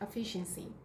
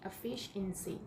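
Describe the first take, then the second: First: The word is said fast. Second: The word is said slowly.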